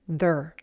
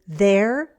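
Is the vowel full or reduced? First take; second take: reduced; full. First: The vowel is reduced to er. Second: The vowel is a full sound before r. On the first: "sounding like their" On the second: "as in their"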